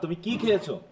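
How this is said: The stress falls on the middle word. It asks what the person ate. "কি এর উপর"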